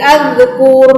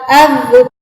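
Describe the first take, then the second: First: The final r is trilled for too long. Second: The final r is short without long trilling. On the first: The speaker calls it wrong. "terlalu terlalu lama di roknya" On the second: The speaker calls it right. "Yang benar adalah az-zukur kalau berhenti"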